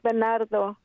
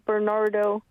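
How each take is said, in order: First: The name is said with Spanish pronunciation. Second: The name is said with English pronunciation. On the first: "Pero es" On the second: "if you pronounce it in English"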